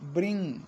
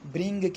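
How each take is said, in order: First: The word ends with only a nasal sound. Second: The word ends with a hard g sound. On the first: The speaker calls it right. "वो गाफ की sound नहीं निकालनी, just नून गुन्ना" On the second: The speaker calls it wrong. "आम पंजाबी लहजे में या उर्दू लहजे में ब्रिंग कह देते हैं, गाफ की साउंड निकालते हैं"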